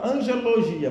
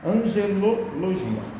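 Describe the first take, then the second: First: It is said fast with syllables squeezed together. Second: Every syllable is said slowly and clearly. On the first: The speaker calls it wrong. "Às vezes a gente fala rapidinho e fala angelologia, mas não é angelologia" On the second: The speaker calls it right. "Temos que aprender a falar certo"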